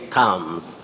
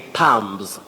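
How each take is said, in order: First: No b sound is pronounced before the final s. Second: A b sound is pronounced before the final s. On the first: The speaker calls it right. "We say thumbs" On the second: The speaker calls it wrong. "Many people say thumbs, without knowing that B is not pronounced"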